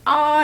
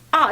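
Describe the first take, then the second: First: The pitch stays high and level throughout. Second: The pitch falls sharply from high to low. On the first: "일성은 아 이렇게 한 옥타브 높여서 해" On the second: "사성은 어떻게 하지? 아 이렇게 해"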